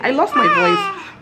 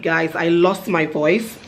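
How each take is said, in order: First: Much higher, slow, strained put-on croak; mock lost voice. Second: Said in the usual way. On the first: Shown as a demonstration. Vlogger shows viewers her lost-voice sound. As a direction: show how the voice sounded when it went. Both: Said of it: "what am I saying?".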